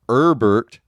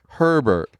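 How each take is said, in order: First: The initial H is silent. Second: The initial H is pronounced. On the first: The speaker calls it wrong. "you don't call them Herbert" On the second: The speaker calls it right. "you call them Herbert"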